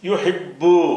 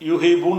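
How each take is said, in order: First: The b sound is held and doubled. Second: The b sound is short and single. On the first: The speaker calls it right. "எப்படி சொல்லணும், யுஹிப்பு" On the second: The speaker calls it wrong. "யுஹிபூன்னு சொல்லாம"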